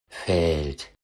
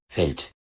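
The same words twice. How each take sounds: First: The vowel is lengthened to half-long. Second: The vowel is kept short. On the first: The speaker calls it right. "Jetzt nochmal richtig" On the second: The speaker calls it wrong. "Also nicht"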